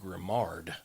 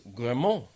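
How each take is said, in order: First: The name is said with a Southern English pronunciation. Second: The name is said with a French pronunciation. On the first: "in my, you know, Southern English world is Grimard" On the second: "in French, G R I M A R D is Grimont"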